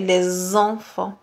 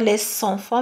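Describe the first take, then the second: First: The words are linked with a Z sound. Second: The words are linked with an S sound. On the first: The speaker calls it right. "la liaison va se prononcer Z" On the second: The speaker calls it wrong. "et non pas S. On va pas dire les enfants"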